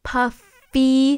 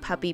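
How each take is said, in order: First: The middle consonant is a clear f sound. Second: The middle consonant sounds like a p. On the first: "I should enunciate more" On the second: "Or maybe I'll just go with it"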